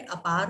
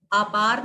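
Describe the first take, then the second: First: "अपार" lower, with short "a"; correct pronunciation. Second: "अपार" with long opening "aa"; louder "aa-paar" for "अपार"; wrong pronunciation. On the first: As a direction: keep the opening of "अपार" brief. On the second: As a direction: stretch the first vowel of "अपार". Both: Shown as a demonstration. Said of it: "अपार नहीं होता है".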